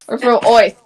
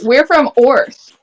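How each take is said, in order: First: It is said in a Brooklyn accent. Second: It is said in a plain accent.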